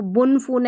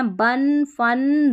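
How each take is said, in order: First: बुन, फून with "oo" vowels; rounded "oo" in बुन and फून, not "uh"; wrong U reading. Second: बन, फन with short "uh" vowels; "uh", not "oo", in बन and फन; short A sound. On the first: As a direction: misread बुन, फून as "boon, foon". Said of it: "ऐसे नहीं पढ़ना". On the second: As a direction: say बन, फन like English "bun, fun". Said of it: "इसको अन पढ़ना है". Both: Shown as a demonstration.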